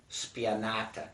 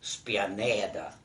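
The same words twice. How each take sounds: First: Spianata said the Italian way, spee-ah-NAH-tah. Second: Spianeda in Saraval dialect, spee-ah-NEH-dah. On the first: Teaching a child the Italian name, Italian pronunciation. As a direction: give spianata its Italian vowels, stress on NAH. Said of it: "what they call in Italian". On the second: Giving the dialect name to a child, Saraval pronunciation. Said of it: "in the Saraval dialect". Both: Shown as a demonstration.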